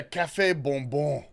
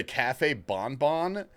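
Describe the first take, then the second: First: Café bonbon with French nasal vowels, bonbon as pon-bo; French-style café bonbon, nasal end, no final n. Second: Café bonbon redone Spanish-style, bonbon as bon-bon with a clear n; café bonbon fixed to Spanish. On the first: Real, not acted. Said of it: "I don't know why I said it French". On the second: Shown as a demonstration. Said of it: "it's a Spanish drink".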